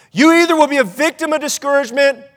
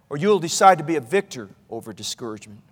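First: Slightly lifted, suspended first option; raised either-or. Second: Low, soft second option; hushed resolve. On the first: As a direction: hold the pitch up and leave the choice hanging. First half of either-or choice. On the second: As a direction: drop the voice deep and quiet to land the choice. Hushed second half of choice. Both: Real, not acted.

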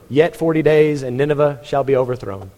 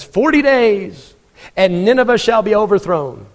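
First: Said in the usual way. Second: A reluctant prophet booming his doom. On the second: Acted. Jonah's short grudging sermon.

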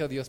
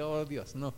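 First: Said in the usual way. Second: Put-on hushed "Oh, Dios, no" of a frightened boy; dismayed gasp. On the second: Boy who spilled the teacher's juice, hushed dismay. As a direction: breathe "Oh, Dios, no" softly, in dismay. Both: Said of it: "Bueno, no dije: "Oh, Dios".

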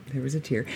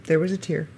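First: Soft echo. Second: Said in the usual way. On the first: Real, not acted. Admitting to listeners he cried, softly repeated.

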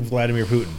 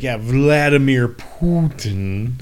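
First: Said in the usual way. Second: "Vladimir Putin" drawn out slowly, rising at the end on "Putin"; mocking Steven Seagal's pronunciation. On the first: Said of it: "'Cause everyone's like". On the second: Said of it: "just the way he fucking pronounced it".

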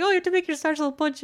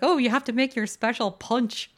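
First: Fast, higher rush through the line; quick retold quote. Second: Said in the usual way. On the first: Retelling the character's punch request, quick and eager. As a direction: rattle it off eagerly. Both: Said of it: "he's like".

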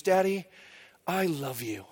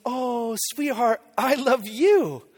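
First: Soft, low imitation of a loving little girl; hushed retold "I love you"; daughter's tender declaration. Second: Slow, drawn-out loving reply; retold daddy gush, lingering on the words; doting dad. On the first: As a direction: retell it softly and earnestly, like a child confiding. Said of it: "she looks into my eyes and she goes". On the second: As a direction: stretch it out fondly, like a melting father. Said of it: "And I was like".

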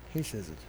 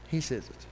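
First: Lower, much softer He says it; soft, grave echo of He says it; hushed repeat. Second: Said in the usual way. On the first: Shown as a demonstration. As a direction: let He says it sink to a near murmur.

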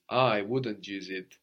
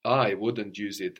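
First: Slow line with "I" drawn out and stressed; emphasis on I. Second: Said in the usual way. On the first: Shown as a demonstration. Teacher prompting the emphatic pronoun, stress on "I". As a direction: lean on "I", taking it slowly. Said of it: "use the word for I for emphasis".

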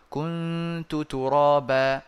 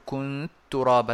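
First: كنت ترابا said very slowly, both ta sounds kept apart; correct unmerged reading. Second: كنت ترابا said with the two ta sounds wrongly merged into one; wrong merged reading. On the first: Teacher reciting the correct reading with no merging. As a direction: stretch it out slowly and pronounce each ta clearly. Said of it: "فلا ندغم". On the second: Teacher showing students the reading they must not use. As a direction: run كنت straight into ترابا, dropping the first ta, as the mistake. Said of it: "لا نفعل هذا". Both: Shown as a demonstration.

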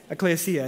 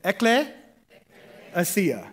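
First: Said in the usual way. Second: Ekklesia drawn out very slowly, syllable by syllable; slow demo. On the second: Shown as a demonstration. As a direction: stretch Ekklesia out so they can repeat it. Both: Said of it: "Somebody say that".

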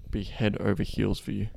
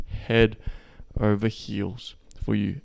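First: Said in the usual way. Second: "Head" hit hard, then "over heels for you" drawn out slowly; emphatic slow repeat. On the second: Shown as a demonstration. Coach hammering home the point with slow emphasis.

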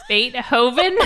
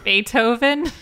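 First: Beethoven as Bait-hoven, higher and incredulous; questioning Bait-hoven; mimicked British pronunciation. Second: Beethoven as Bay-toe-ven, rising; questioning Bay-toe-ven; usual American pronunciation. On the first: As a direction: laughingly echo Beethoven with a heavy H. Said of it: "putting emphasis on the H". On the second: Shown as a demonstration. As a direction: say Beethoven with the T starting the second syllable. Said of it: "How you say it?".

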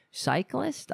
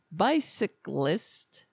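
First: "Cyclist" tried as a questioning rise; easier word. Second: "Bicyclist" spelled out slowly, syllable by syllable; slow careful try. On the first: Host swapping in the easier word, rising. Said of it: "I can say that". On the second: Host sounding out a tricky word, slowly. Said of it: "How do you say that?". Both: Shown as a demonstration.

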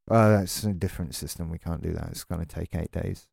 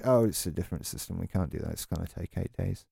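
First: A lightly voiced bored agent, quieter and lower; mocking support agent. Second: The same lightly mocked agent line, fast, softer and lower; mocking support agent, repeated. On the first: The ranter mimics support staff brushing him off, lightly mocking and softer. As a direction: parrot the company line, softer and lower, with mild mockery. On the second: The ranter repeats the support staff's stock excuse, rattled off fast and softer. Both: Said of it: "we just repeat the same thing over and over again".

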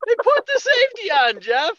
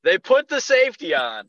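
First: Very high, incredulous squeal; comic high-pitched exasperated outburst; outraged squeal. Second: Raised-pitch exasperated reveal; indignant, higher than usual; exasperated disbelief. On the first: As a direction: repeat it at the top of your range. Repeats the reveal, escalating in outrage. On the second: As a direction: announce the outrage, not yet shrieking. Exasperated repeat of the story's reveal. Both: Retold or imitated.

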